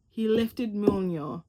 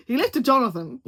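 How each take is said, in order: First: "Mjolnir" said slowly as "min-yaw"; slow careful "he lifted Mjolnir", fumbling "Mjolnir"; mispronounced name. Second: "Jonathan" said for Mjolnir, louder with a rising end; playful louder "He lifted Jonathan"; joking mispronunciation. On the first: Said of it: "I know I said that wrong". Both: Real, not acted.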